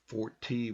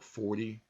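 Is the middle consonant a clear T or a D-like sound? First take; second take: clear T; D-like. First: The middle consonant is a clear T. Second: The middle consonant sounds like a D. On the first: "instead of" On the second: "we go forty"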